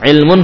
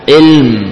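First: The word ends with a vowel and n after m. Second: The word ends sharply on a silent m. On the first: The reading continues past this word. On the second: The reader stops on this word.

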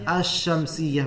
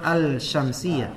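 First: The l merges into a doubled sh sound. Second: The l is clearly pronounced before the sh. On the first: The speaker calls it right. "bacanya asy-syamsiyah" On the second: The speaker calls it wrong. "bukan al-syamsiyah"

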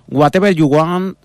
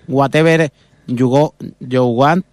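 First: It is said in a British English accent. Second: It is said in a Spanish-accented English. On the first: "si eres de Cambridge" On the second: "o si eres de Moncada, pues"

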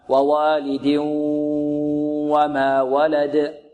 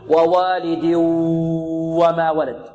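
First: The merged n into w carries a nasal sound. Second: The merged n into w has no nasal sound. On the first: The speaker calls it right. "بل الصحيح أنه إدغام بغنة" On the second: The speaker calls it wrong. "يدغم ويمد ويمط بدون غنة"

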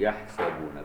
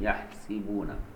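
First: The vowel after the s is 'a'. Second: The vowel after the s is 'i'. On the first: "بفتح السين هكذا" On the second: "باقي القراء بكسر السين"

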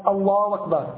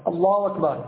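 Both takes have the same delivery.

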